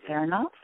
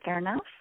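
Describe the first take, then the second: First: The voice is firm and directive. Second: The voice is soft and dreamy. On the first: The speaker is not open to interference. "In this voice, I am going to tell you what I need to do or am doing, and I don't expect you to interfere" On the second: The speaker is open to suggestions and conversation. "if I speak in this voice, it's much dreamier"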